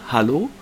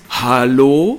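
First: It is said in a plain, neutral way. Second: It is said in an outraged, indignant way. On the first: It is an ordinary greeting. "jetzt sage ich es normal" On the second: The speaker is asking what on earth is going on. "dieses Empörungshallo"

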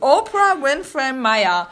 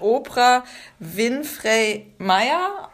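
First: The name is pronounced the English way. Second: The name is pronounced the German way. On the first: "ob man dann auch das so englisch ausspricht" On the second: "oder ob man sagt Oprah Winfrey Meyer"

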